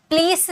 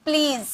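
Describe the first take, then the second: First: "प्लीज" finished with voiceless s; wrong s ending. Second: "प्लीज" closing on a buzzing z; voiced z ending. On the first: Teacher warning students off "प्लीज" with final s. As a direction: mispronounce "प्लीज" as "plees". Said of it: "प्लीज नहीं". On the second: Teacher drilling correct "प्लीज", voiced z ending. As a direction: finish "प्लीज" with z, not s. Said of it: "ज होता है". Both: Shown as a demonstration.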